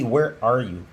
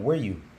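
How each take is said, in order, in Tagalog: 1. Binibigkas ang 'are' bilang sarili nitong salita. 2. Nagsasama ang 'are' sa pinahabang 'where'. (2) "ihahaba mo lang"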